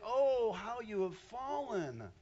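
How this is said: It is said in a sad, grieving tone. The speaker is sorrowful about the fall. The speaker calls it right. "He was grieved at this point"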